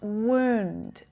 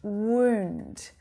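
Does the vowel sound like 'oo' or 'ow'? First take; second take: oo; oo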